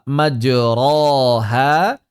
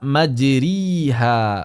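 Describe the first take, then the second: First: The vowel after r is an open a. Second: The vowel after r is a closed i. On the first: "tidak dibaca majroha" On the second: "tidak dibaca majriha"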